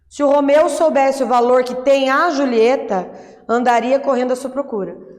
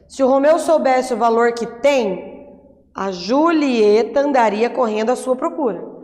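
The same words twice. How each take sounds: First: There is a pause right after 'Julieta'. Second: There is a pause right after 'tem'.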